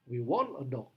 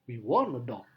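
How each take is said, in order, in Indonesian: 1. Tekanan paling kuat ada pada want. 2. Tekanan paling kuat ada pada want.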